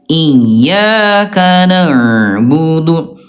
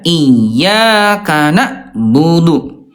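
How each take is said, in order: First: The ain sound flows on slightly. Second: The ain sound is cut off abruptly. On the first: The speaker calls it right. "yang kedua dia sedikit mengalir" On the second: The speaker calls it wrong. "Yang satu dihantakan"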